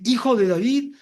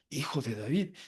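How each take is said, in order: First: A loud, high cry of Hijo de David; calling out. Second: Said in the usual way. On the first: Retold or imitated. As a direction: cry it out across the crowd. El ciego grita el título. (grito fuerte y agudo)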